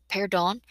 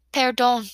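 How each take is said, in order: First: "Perdon" repeated with a rising question; questioning echo. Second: Put-on called-out Spanish in an American accent; higher, louder call with American-accented vowels; heavy American accent. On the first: Acted. Narrator repeating the girl's "Perdon", as a disbelieving question. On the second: A narrator's reading. Tall girl calls back to painters, heavy American accent. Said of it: "she calls out in a heavy American accent".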